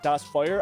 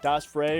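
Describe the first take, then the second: First: The second word sounds like 'fire'. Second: The second word sounds like 'fray'. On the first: "or maybe it's like Das Fire. I think it might be Das Fire" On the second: "I don't know if you pronounce it like Das Frey"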